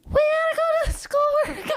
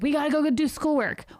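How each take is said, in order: First: It is said in a high, squeaky helium voice. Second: It is said in an ordinary speaking voice.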